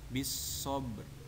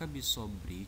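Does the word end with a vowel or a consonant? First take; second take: consonant; vowel. First: The word stops short on its final consonant. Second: The word is said with its full ending.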